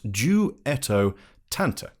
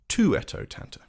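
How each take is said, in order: First: The name begins with a D sound. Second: The name begins with a T sound. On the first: The speaker calls it right. "it's pronounced Duetto Tanta" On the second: The speaker calls it wrong. "not Tuetto Tanta"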